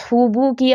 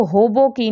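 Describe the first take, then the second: First: "ہوبو کی" with clear oo vowels, hoo-boo-kee; correct rounded pesh. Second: "ہوبو کی" with o vowels, ho-bo-kee; majhool mispronunciation. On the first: Teacher modelling the right reading of pesh, rounded oo. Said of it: "صحیح تلفظ ہے وہ ہے ہو". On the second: Teacher showing students what not to read, majhool o. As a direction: open the oo of "ہوبو کی" into o as in bolo. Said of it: "اب اس کو ہوبو کی نہیں پڑھنا". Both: Shown as a demonstration.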